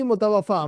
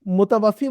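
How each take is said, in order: First: मुतवफ़ा ending in "-faa"; teacher's demo of मुतवफ़ा, open aa ending; contrasted ending. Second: मुतवफ़ी ending in "-fee"; teacher's demo of मुतवफ़ी, ee ending; contrasted ending. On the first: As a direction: say मुतवफ़ा with a long final aa. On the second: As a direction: say मुतवफ़ी with a long final ee. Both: Shown as a demonstration. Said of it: "आप ये देखिएगा".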